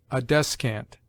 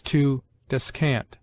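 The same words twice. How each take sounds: First: "descant" stressed DES-cant, weight on the first syllable; as a noun, hit the start of "descant". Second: "descant" stressed de-SCANT, weight on the last syllable; as a verb, lean on the end of "descant"; verb stress on the second syllable. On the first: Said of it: "the noun on the former syllable". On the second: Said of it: "the verb has commonly the accent on the latter". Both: Shown as a demonstration.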